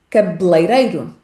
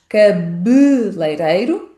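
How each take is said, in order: First: The first E vowel is dropped entirely. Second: The first E vowel is clearly pronounced. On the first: "uma palavra sem o som E" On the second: "com um E fechado muito marcado"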